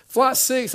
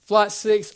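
First: Louder, higher boarding call; flight call. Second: Flight call. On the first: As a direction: sing out the flight number. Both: Retold or imitated. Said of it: "by flight six".

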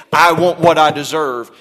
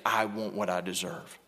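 First: Louder, insistent claim; loud demand. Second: Softer, hushed echo of the demand; soft repeat. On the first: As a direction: demand your due out loud. Preacher voices an entitled demand. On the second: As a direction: drop it to a quiet murmur. Same demand echoed softly before King. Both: Retold or imitated.

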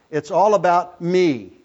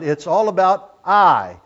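First: All in It's all about me pushed up, me left light; stress on all. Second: I in it's all about I said slow and loud; stress on I. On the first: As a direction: lean on all, let me fall away. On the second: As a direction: land hard on the final I. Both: Shown as a demonstration. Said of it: "I'm emphasizing one key word there".

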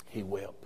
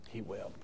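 First: He wept said low and soft; quiet, grave. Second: He wept, barely voiced, even softer; near whisper. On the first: Preacher to congregation, hushed and grave. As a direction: let he wept fall away into a hush. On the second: Preacher to congregation, fading to a near whisper. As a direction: drop He wept to almost nothing. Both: Shown as a demonstration.

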